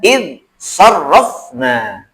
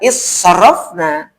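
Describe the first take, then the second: First: The n sound is pronounced clearly and separately. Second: The n sound merges into the next consonant. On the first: The speaker calls it right. "tapi dibaca insarrafna" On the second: The speaker calls it wrong. "tidak dibaca israfna"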